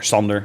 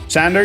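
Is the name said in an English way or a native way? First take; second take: native; English. First: The name is said with native Dutch sounds. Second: The name is said with English sounds. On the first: The speaker calls it right. "Or Sander, I should say. ... proper pronunciation" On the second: The speaker calls it wrong. "going English"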